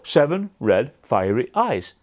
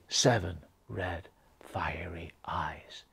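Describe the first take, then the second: First: It is said in a plain, neutral voice. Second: It is said in a scary, spooky voice.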